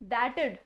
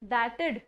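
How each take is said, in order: First: Only the 'd' of 'would' remains. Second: Only the 'd' of 'would' remains.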